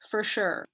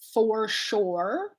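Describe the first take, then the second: First: The word 'for' is reduced to 'fur'. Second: The word 'for' has a full vowel. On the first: "I say for sure" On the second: "I don't say for sure"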